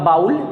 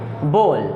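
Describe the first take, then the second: First: The vowel sounds like 'ow' in cow. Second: The vowel sounds like 'oh' in go. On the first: The speaker calls it wrong. "असल में बाबू ये बाउल नहीं होता" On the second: The speaker calls it right. "बल्कि क्या होता है, बोल"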